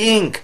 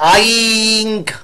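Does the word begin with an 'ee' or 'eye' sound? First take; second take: ee; eye. First: The word begins with an 'ee' vowel. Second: The word begins with an 'eye' vowel. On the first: The speaker calls it right. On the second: The speaker calls it wrong. "আইঙ্ক বলেনি"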